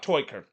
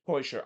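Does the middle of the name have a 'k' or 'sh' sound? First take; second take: k; sh. First: The name is said with a 'k' sound. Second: The name is said with an 'sh' sound. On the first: The speaker calls it wrong. "it's not Toiker" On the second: The speaker calls it right. "It's Cedric to- Teuscher"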